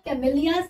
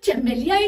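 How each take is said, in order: First: The word begins with a k sound. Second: The word begins with a ch sound. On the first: The speaker calls it right. "But it is the कैमेलिया sinensis" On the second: The speaker calls it wrong. "It's not a correct pronunciation"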